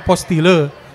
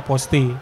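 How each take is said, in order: First: The word ends with an audible 'le' sound. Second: The word ends on 'ti' with no 'le'. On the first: The speaker calls it wrong. "kalau kita bahasa Indonesia tulisannya begitu kan dibacanya apostile" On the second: The speaker calls it right. "tapi yang benar itu sebenarnya dibacanya aposti"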